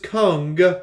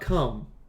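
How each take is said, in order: First: The name ends with an ng sound. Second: The name ends with an m sound. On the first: The speaker calls it right. "his name is Kung" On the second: The speaker calls it wrong. "not Cum"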